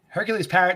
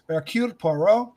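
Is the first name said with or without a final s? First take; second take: with; without. First: The first name ends with an s sound. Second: The first name has no final s sound. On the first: The speaker calls it wrong. "It's not Hercules yeah. Parrot" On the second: The speaker calls it right. "That is how you're supposed to say that name"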